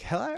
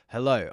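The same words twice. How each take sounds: First: The voice is high and thin. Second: The voice is deep and full. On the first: The speaker sounds nervous. "their voice goes really high" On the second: The speaker sounds confident. "There's no depth. There's no like"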